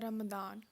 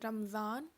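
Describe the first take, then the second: First: The middle consonant is a d sound. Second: The middle consonant is a z sound. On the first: "कुछ लिखेंगे रमदान मुबारक" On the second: "कुछ लिखेंगे रमज़ान मुबारक"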